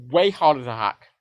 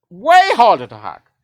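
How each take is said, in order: First: Said in the usual way. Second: "Way harder to hack" said louder, slower and higher, "Way" hit hard; emphatic repeat. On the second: Shown as a demonstration. Correcting a viewer about hacking, a loud slow emphatic repeat. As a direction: hammer the point home.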